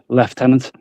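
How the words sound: It is said with a British accent.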